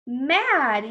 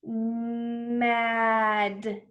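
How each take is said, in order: First: Said in the usual way. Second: Nice and slow. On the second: Shown as a demonstration. Teacher says it again for children, Mad nice and slow. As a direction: stretch every sound of Mad. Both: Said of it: "nice and slow".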